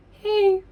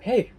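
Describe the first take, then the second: First: Squeaky-high imitation of a friend's greeting, louder; very high-pitched voice. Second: Said in the usual way. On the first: Friend greets speaker in her trained voice, very high-pitched. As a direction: mimic her hey far up in pitch. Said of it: "by her very high-pitched voice". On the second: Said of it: "I'm like".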